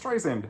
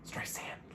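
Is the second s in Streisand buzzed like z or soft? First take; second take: buzzed z; soft. First: The second s is buzzed like a z. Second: The second s is a soft s. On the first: The speaker calls it wrong. "You forget sometimes. You're like" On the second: The speaker calls it right. "like sand on the beach, soft S"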